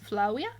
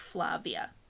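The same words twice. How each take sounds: First: The V is sounded like a W. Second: The V is sounded like a V. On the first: "in classical Latin the V's sound like W's" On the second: "when we say it in English we can say the way we'd expect"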